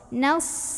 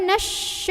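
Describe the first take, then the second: First: It ends in a thick, tongue-tip s sound. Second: It ends in an sh sound. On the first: The speaker calls it right. "ujung lidah ... suaranya lebih tebal" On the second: The speaker calls it wrong. "bukan juga nasy. Kalau nasy itu huruf shin"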